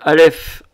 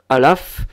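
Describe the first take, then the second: First: The vowel after the L is an e. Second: The vowel after the L is an a. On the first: This is the Hebrew pronunciation. "en hébreu" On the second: This is the Samaritan pronunciation. "se caractérise donc par sa prononciation"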